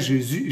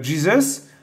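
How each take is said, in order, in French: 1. Le nom se prononce à la manière française. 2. Le nom se prononce à la manière anglaise. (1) "en français" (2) "Jésus en anglais"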